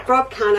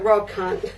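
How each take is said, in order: First: Rob said higher and louder, insisting; stress on Rob. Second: Said in the usual way. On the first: Shown as a demonstration. Explaining her husband can't follow Scottish accents, Rob stressed. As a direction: repeat Rob can't, punching Rob. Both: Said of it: "I have to translate".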